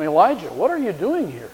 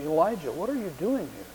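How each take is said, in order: First: Said in the usual way. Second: Slow, soft and hushed; God speaking in a still small voice; quiet whisper. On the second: A narrator's reading. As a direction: ask it gently under the breath. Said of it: "in that slow and quiet whisper".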